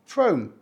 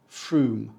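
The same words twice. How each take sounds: First: Frome said with a long O, Frohm; slow Frome with the O long; wrong magic E. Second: Frome said Froom. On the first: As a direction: Frome rhyming with home. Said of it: "It should say". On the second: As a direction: lower Frome rhyming with room. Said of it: "correctly pronounced". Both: Shown as a demonstration.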